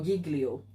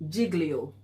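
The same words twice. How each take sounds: First: Giglio with a hard G, GIG-lee-oh; hard-g pronunciation. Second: Giglio with a J sound, JIG-lee-oh; soft-g pronunciation. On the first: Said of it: "or Giglio". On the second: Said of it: "is it". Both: Shown as a demonstration.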